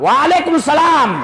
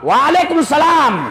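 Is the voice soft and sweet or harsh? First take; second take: harsh; harsh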